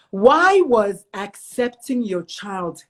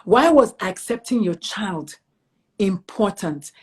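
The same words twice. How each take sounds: First: Slow, deliberate question. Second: Each word laid out slowly; a slow, careful repeat of the question; slow, deliberate repeat. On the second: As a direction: make sure she hears the question. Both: Shown as a demonstration. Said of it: "I want you to hear the question".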